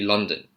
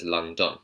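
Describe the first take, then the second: First: The second syllable has a reduced, weak vowel. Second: The second syllable has a full 'on' vowel. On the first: The speaker calls it right. "It's actually London" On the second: The speaker calls it wrong. "they see the O N at the end of London and then they pronounce it as London"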